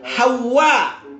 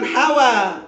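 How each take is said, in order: First: The w is doubled and it ends in a catch. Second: The w is single with no final catch. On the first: It names the mother of mankind. The speaker calls it right. "Wawnya ditasdid. Kemudian ada alif, kemudian ada hamzah. Jadi bacanya itu Hawa" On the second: It means desire or passion. The speaker calls it wrong. "bukan Hawa"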